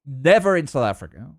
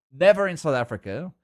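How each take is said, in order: Both takes have the same delivery.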